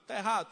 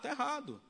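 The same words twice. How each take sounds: First: "Tá errado?" asked as a questioning rhetorical query; asking question. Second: "Tá errado." stated as a flat firm verdict; firm answer. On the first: Preacher asks the prisoners "Tá errado?" as a question. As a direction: pose "Tá errado?" as a question to the congregation. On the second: Preacher answers himself with a firm verdict, "Tá errado.". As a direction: answer your own question "Tá errado." with finality. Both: Shown as a demonstration.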